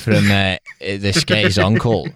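It is said in a put-on character voice.

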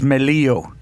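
The name is said with a Spanish pronunciation. "In Spanish, okay. It's Melillo"

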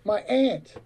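Aunt is said the way white Americans tend to.

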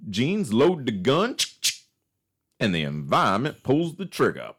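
It is said in a put-on Texan accent.

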